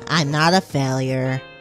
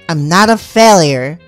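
First: It is said at a moderate volume. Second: It is said at a greater volume.

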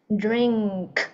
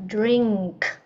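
No difference in how they are said.

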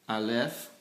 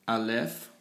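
The two takes are said the same way.

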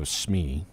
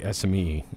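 First: It is pronounced as a single word. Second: Each letter is spoken separately. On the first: The speaker calls it wrong. "I hate when people go SME" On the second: The speaker calls it right. "you say SME"

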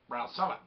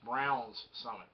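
First: No 's' sound is heard at the end of 'Brown'. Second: An 's' sound is heard at the end of 'Brown'. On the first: "Or do you say it fast and it's Brown Summit?" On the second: "It's spelt with an S, so I think it's Browns Summit"

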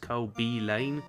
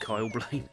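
First: The B is said as a separate letter. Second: The B is blended into one syllable. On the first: The speaker calls it right. "it's actually not Kyle Blaine. It's Kyle B Lane" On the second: The speaker calls it wrong. "but everyone calls him Kyle Blaine"

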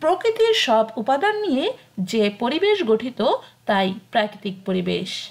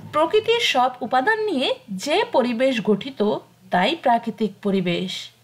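Both takes have the same delivery.

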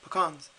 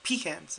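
First: The word is said the non-Southern way. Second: The word is said the Southern way. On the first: This is how the speaker says it. The speaker calls it right. "I feel like I say pecans" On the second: This is how other people say it. The speaker calls it wrong. "like Southerners or my parents, they say pecans"

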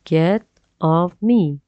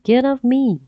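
First: The phrase is said at a slower pace. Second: The phrase is said at a fast pace.

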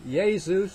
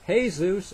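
First: The name is said with an Italian pronunciation. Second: The name is said with a Latin American pronunciation. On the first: "as they say in Italy" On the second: "as they say in Latin America"

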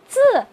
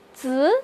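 First: The pitch falls sharply from high. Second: The pitch rises from mid to high.

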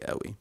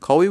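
First: The word begins with a glottal stop. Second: The word begins with a deep q sound. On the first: The word means very. "when it means very, we say awi" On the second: The word means strong. "Qawi, we do say it when it means strong"

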